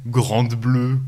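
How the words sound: The title is said with a French accent.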